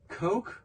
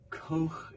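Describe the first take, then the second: First: It is said like the English word coke. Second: It ends in a soft, breathy German ch. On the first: "Coke in English" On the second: "Koch in German"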